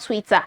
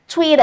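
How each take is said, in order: First: It is said with a non-American accent. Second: It is said with an American accent. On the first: The speaker calls it wrong. "and not Twitter" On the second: The speaker calls it right. "let me speak American English"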